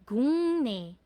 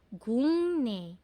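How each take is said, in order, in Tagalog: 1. Ang gitnang katinig ay nasalized na ng. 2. Ang gitnang katinig ay nasalized na ng.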